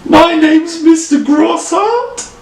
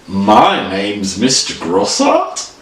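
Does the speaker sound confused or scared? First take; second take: scared; confused. First: It sounds frightened, with a raised voice. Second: It sounds puzzled and questioning. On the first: The speaker is afraid of something around them. "Our next one is scared" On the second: The speaker is unsure what is going on. "You're really confused"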